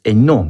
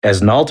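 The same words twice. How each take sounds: First: Hainaut said the French way as "eh-NO", silent H and T; correct French name. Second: Hainaut said wrongly as "AZ-nalt" with sounded H and T; anglicized Hainaut, pronouncing the H and final T; mispronounced name. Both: Acted. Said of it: "The correct pronunciation is Hainaut".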